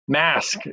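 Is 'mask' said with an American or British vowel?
American. The vowel is a flat American 'a' sound. "is that the right pronunciation?"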